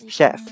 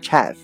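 First: The word begins with a 'sh' sound. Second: The word begins with a 'ch' sound. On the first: The speaker calls it right. "但是呢发成sh 的音啊，叫做chef" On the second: The speaker calls it wrong. "这个单词不读作chef 啊，虽然写成ch"

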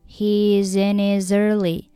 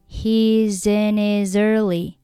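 Both takes have the same delivery.

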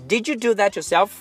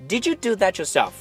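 No difference in how they are said.

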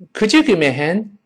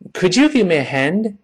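Both takes have the same delivery.

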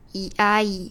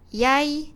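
First: It is said slowly. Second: It is said quickly. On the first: The speaker calls it right. "那我放慢速度哦。" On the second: The speaker calls it wrong. "我是不是念得太快了呢？"

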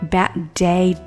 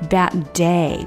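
First: The two d sounds merge into one. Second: Both d sounds are said separately.

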